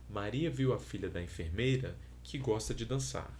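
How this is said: There is a pause after enfermeira. "com uma pausa após o segundo possível, o segundo elemento"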